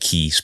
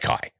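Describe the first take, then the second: First: The vowel sounds like 'ee', as in key. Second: The vowel sounds like 'eye', as in kite. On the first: It is read the way it is spelled. The speaker calls it wrong. "Looks like Key" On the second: It is said the way local people say it. The speaker calls it right. "sounds like Kai"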